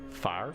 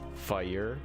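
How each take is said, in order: First: The word is said with one syllable. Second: The word is said with two syllables. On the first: This is how southern US speakers say it. "in the south it's generally one syllable" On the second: This is how northern US speakers say it. "in the northern parts of the U S fire is two syllables"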